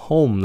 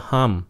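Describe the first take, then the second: First: HOME like Vietnamese "hôn" closed with M; correct HOME. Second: HOME mispronounced as "ham"; wrong vowel. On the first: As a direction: round the O in HOME, closing on M. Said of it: "làm như chữ hôn nhân vậy đó, mà chữ M". ("home" như "hôn" nhưng kết bằng M) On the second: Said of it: "Đừng có home". (đọc sai "home" thành "ham") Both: Shown as a demonstration.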